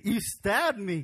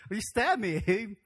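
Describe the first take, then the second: First: Lightly voiced son accusing his father; a mild accusing cry; hurt Isaac. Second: Slow, stretched mock accusation with a laugh; hurt Isaac, drawn out. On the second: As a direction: drag it out in mock outrage. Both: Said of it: "what if we were Isaac".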